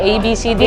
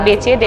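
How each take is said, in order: First: The letters are named with English letter names. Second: The letters are named with Indonesian letter names. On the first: "jatuhnya ke Inggris dia" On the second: "ngebaca alfabetnya Indonesia"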